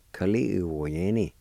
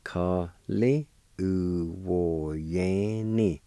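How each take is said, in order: First: Said in the usual way. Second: "Ka, li, u, wo, yan, ni" slow, every syllable stretched; slow syllable sounding-out. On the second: Shown as a demonstration. Teacher joining both parts of handful, slowly syllable by syllable. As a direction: draw out each syllable of "Ka, li, u, wo, yan, ni".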